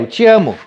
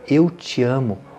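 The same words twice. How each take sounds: First: It is said quickly and casually. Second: It is said slowly and earnestly. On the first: The feeling is tossed off without weight. The speaker calls it wrong. "Não vale assim, ah, é" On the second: The feeling is meant deeply. The speaker calls it right. "É um impacto muito grande dizer assim, ó"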